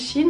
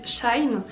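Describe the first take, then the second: First: The word does not sound like 'shine'. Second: The word sounds like 'shine'. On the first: This is how the speaker herself says it. "moi je dis Shein" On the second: This is how many other people say it. "il y en a plein qui disent Shine"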